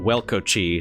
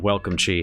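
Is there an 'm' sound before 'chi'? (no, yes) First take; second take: no; yes. First: It is said without an m sound before chi. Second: It is said with an m sound before chi. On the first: The speaker calls it right. "they're called welco chi" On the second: The speaker calls it wrong. "not not welcome chi"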